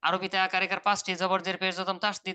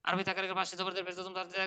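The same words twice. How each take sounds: First: The passage is read at a slower speed. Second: The passage is read at a faster speed.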